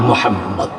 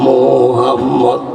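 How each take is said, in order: First: The vowel in the name is kept short. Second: The vowel in the name is drawn out long. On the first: The speaker calls it right. "মোহাম্মদ টানা যাবে না।" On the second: The speaker calls it wrong. "এই মোহাম্মদ টান আসেনি"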